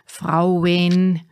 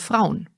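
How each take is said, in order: First: The vowel is drawn wide in a Bavarian way. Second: The vowel is said in standard German. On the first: The speaker calls it wrong. "Wir Bayern ziehen gerne die Vokale in die Breite" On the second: The speaker calls it right. "Richtig wäre"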